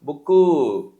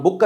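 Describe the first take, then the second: First: బుక్కు with a long falling "oo" tacked on; Telugu-style pronunciation. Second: బుక్ ending on a clean "k"; English "book", బుక్ without a final "oo"; correct English pronunciation. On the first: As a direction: drag out the final vowel of బుక్కు. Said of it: "ఏమని పలుకుతారు". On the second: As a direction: stop బుక్ on the consonant, no vowel after it. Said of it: "బుక్ అని పలకాలి". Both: Shown as a demonstration.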